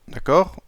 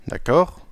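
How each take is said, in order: No difference in how they are said.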